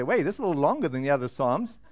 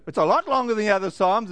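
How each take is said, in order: First: Quick, low-key aside in a reader's voice; lightly acted reader thinking aloud, fast and lower; puzzled reader. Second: Quick, firmer reader's reaction; growing surprise. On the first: Bible-plan reader hitting Psalm hundred nineteen, lightly acted puzzlement. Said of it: "You say". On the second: Acted. Bible-plan reader turning a page, mildly acted surprise. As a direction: step up the surprise a notch, fast. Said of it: "And you flip a page".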